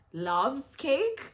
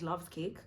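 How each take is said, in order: First: Loves cake thrown out high and loud; incredulous Loves cake, louder and higher; emphatic repeat. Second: Said in the usual way. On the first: Real, not acted. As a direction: punch Loves cake higher with a rising tune.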